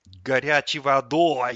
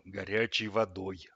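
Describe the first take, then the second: First: Loud, slow grumbling echo; disgruntled. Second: Slow, stern, measured order; curt, final. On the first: Tap echoes the fridge's order, loud disgruntled grumble. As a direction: grumble it back loudly, drawn out. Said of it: "недовольно буркнул тот". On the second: Fridge orders the boy to wash, stern and final. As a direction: lay it down firmly, slowly, no argument. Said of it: "отрезал холодильник". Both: A narrator's reading.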